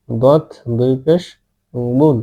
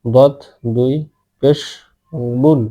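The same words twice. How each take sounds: The two takes are said the same way.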